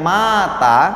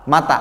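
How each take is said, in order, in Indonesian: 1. Vokal pertama dibaca panjang. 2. Vokal pertama dibaca pendek. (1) "kalau dipan, dibaca panjang" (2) "Yang betul bacaannya adalah mata"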